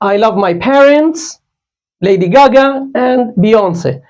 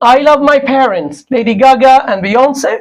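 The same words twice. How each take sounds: First: Clear pauses separate each of the list items. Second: The list items run together without clear pauses.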